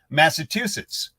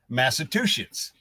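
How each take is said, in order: First: The word is pronounced in the standard way. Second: The word is pronounced in a garbled way. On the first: The speaker calls it right. "you'd say Massachusetts" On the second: The speaker calls it wrong. "she'd go Massachusetts"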